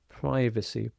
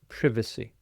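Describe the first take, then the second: First: It is said with an American pronunciation. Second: It is said with a British pronunciation. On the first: "Americans often pronounce this privacy" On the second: "but British English"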